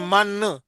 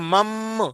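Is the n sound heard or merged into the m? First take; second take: heard; merged. First: A clear n sound is heard before m. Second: The n merges fully into a doubled m. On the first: The speaker calls it wrong. "तो उसमें नून की आवाज आ रही है ना?" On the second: The speaker calls it right. "अब जब हम मिलाएंगे उसमें दूसरी मीम में"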